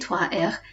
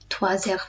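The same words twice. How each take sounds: First: Trois and heures are said without a linking z. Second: Trois links to heures with a z sound. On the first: "If you say trois heures, it's okay" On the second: "try what we call a liaison, where you link these"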